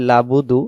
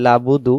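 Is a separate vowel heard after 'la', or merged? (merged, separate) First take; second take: merged; merged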